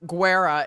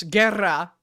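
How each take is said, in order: First: "Guerra" said the anglicized gringo way; "Guerra" mispronounced the English way; wrong Guerra. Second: "Guerra" said the Spanish way, as its owner says it; "Guerra" pronounced properly in Spanish; correct Guerra. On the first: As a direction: flub "Guerra" the way an outsider reads it. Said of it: "it's not Guerra". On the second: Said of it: "it's not Guerra, it's Guerra". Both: Shown as a demonstration.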